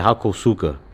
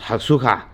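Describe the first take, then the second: First: The name is said with four syllables. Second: The name is said with three syllables. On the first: This is how it is said locally in Texas. "In Texas, we say Hakosuka" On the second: Someone else says this is the proper way. "it's pronounced Hasuka"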